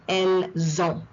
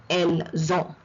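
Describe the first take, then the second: No difference in how they are said.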